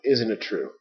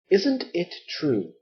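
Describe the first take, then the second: First: The words run together like one word. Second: Each word is said separately and carefully. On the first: The speaker calls it right. "There's one word like that. Bam" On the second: The speaker calls it wrong. "Nobody talks like that"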